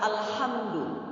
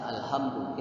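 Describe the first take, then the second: First: The h is a tense throaty h. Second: The h is a light breathy h. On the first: It means praise. The speaker calls it right. "Tapi yang benar adalah alhamdu" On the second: It would mean death. The speaker calls it wrong. "Kita baca alhamdu, kita sengaja, itu berarti sholatnya tidak tidak sah"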